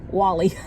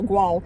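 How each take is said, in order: First: It is said as two syllables, like 'Wally'. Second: It is said as one syllable, like 'Gwahl'. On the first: The speaker calls it right. "it's Wally" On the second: The speaker calls it wrong. "it's not Gual"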